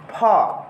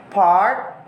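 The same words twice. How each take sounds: First: "part" with long A, no R; British "part", vowel in place of R; British dropped R. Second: Said in the usual way. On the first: Shown as a demonstration. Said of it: "replaced by a vowel sound". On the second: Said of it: "R is sometimes replaced".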